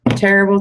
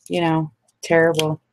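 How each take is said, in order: First: Terrible said higher and louder, stretched out; Terrible, louder and higher than the first one; emphatic terrible. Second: Said in the usual way. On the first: Real, not acted. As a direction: lean hard on Terrible.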